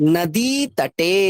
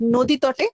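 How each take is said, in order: First: The first vowel sounds like 'a', vowels long. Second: The first vowel sounds like 'o', vowels short. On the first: The speaker calls it right. "দিয়ে দীর্ঘ ইকে টানলেন, একার কেও টানলেন" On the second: The speaker calls it wrong. "না, no ওকার হবে না"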